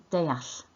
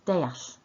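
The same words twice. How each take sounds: The two takes are said the same way.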